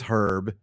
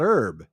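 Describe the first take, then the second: First: The word begins with an h sound. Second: The word begins with a vowel sound. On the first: "if it's a and not an, then it is herb" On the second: "and not herb"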